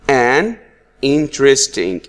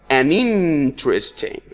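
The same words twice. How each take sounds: First: The two words are said separately. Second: The two words run together as one.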